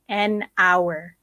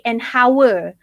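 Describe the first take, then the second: First: The h sound at the word start is silent. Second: The h sound at the word start is pronounced. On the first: The speaker calls it right. "You would say an hour" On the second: The speaker calls it wrong. "You don't say an hour"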